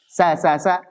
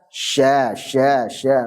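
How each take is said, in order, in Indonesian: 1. Konsonannya s tajam, ujung lidah ke depan. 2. Konsonannya sh yang melebar, lidah lebih ke belakang. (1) "Sa sa sa itu kurang mundur" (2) "mundur jadi tengah, tengah lidah"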